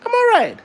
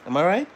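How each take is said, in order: First: Very high, louder playful squeal. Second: Said in the usual way. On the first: Real, not acted. Father squealing at his baby.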